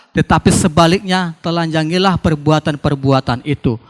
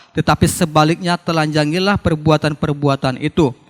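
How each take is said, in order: No difference in how they are said.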